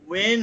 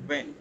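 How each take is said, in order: First: It starts with rounded lips, a w sound. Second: It starts with lip touching teeth, a v sound. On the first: The speaker calls it wrong. "ওয়ে নয়" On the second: The speaker calls it right. "এর মাঝখানে হবে এটা"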